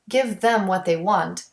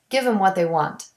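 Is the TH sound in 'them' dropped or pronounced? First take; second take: pronounced; dropped. First: The TH in 'them' is clearly pronounced. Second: The TH in 'them' is dropped. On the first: "Delete the T H in them when it is unstressed"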